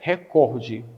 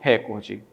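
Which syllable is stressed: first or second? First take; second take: second; first. First: The stress is on the second syllable. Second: The stress is on the first syllable. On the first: The speaker calls it right. "a prosódia da palavra é recorde" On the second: The speaker calls it wrong. "e não recorde"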